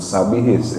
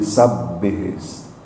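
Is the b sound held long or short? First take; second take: short; long. First: The b sound is short, not doubled. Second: The b sound is held long, doubled. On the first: The speaker calls it wrong. "bukan sabihis ya" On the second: The speaker calls it right. "tapi sabbihis"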